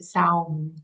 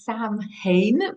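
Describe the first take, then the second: First: It is said short, with a 'sow' sound. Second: It is read out letter by letter, as spelled. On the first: "but they pronounce it Saum" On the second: "written in English, it's it's Samhain"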